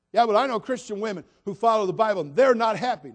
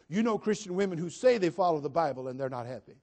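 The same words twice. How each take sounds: First: Loud, raised-pitch imitation of an objector; mock objection. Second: "say" leaned on to correct the claim; stress on say. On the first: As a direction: throw it out loudly as someone else's protest. Voicing an objector before correcting them. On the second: Real, not acted. Preacher correcting the objector, stressing "say". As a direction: lean on the word "say".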